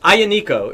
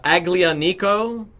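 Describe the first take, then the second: First: The middle is said with a Y sound. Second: The middle is said with a hard G sound. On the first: The speaker calls it right. "There was no G. It was like a Y sound" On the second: The speaker calls it wrong. "The word looks like uh, Aglianico. It's pronounced nothing like that"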